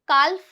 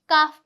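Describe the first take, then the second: First: The L sound is pronounced. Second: The L sound is silent. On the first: The speaker calls it wrong. "काल्फ नहीं पढ़ेंगे" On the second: The speaker calls it right. "काफ पढ़ेंगे"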